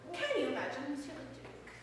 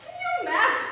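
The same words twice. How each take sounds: First: Softer and lower, almost to herself; a quieter murmured repeat; lower, softer aside. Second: Louder, higher, laughing through it; squealed with laughing delight; laughing, thrilled. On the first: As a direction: drop it down, conspiratorial. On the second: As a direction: gush with glee. Gushing over the gossip. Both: Acted.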